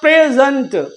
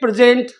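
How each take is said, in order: First: The last syllable has a reduced 'unt' vowel. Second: The last syllable has a full 'ent' vowel. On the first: The speaker calls it right. "ये होता प्रेजेंट" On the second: The speaker calls it wrong. "अरे ये नहीं होता"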